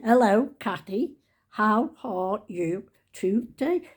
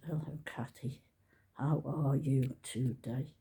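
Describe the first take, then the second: First: Slow sing-song genteel hello; posh greeting. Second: Low, soft, slow hello; soft greeting. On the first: Trying a genteel greeting as a comment. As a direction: put on a refined rising lilt. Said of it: "there's it". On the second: Practising a soft comment for the algorithm. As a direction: ease into a gentle slow greeting. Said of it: "Let's just". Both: Shown as a demonstration.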